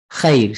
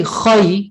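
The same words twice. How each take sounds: First: Khair with a light "khayr" vowel, not rounded; everyday Arabic pronunciation. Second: Khai with heavy kh and rounded "khoy" vowel; tajweed pronunciation. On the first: Teacher showing everyday spoken Arabic, khair said with a light vowel. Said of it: "don't have to pronounce it in that way". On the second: Teacher showing how tajweed sounds, khai said with heavy rounded vowel. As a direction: give khai its full, rounded recitation sound. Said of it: "that's kind of pronouncing it with". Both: Shown as a demonstration.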